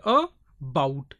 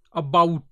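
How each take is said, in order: First: "about" broken into a, pause, bout; two separate beats in "about"; split into syllables. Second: "about" with the weight on bout; stress on bout. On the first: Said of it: "two syllables are there". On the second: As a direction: stress the second syllable of "about". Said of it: "bout is given a little more stress". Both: Shown as a demonstration.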